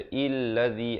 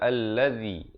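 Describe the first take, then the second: First: The word begins with an i vowel. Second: The word begins with an a vowel. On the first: The speaker calls it wrong. "jangan baca illadzi" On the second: The speaker calls it right. "Kita baca alladzi"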